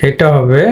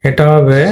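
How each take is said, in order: No difference in how they are said.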